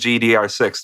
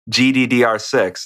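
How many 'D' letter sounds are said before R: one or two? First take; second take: one; two. First: Only one D letter name is said before R. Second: Two D letter names are said before R. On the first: "I'm just saying G D R six" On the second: "it's too long to say"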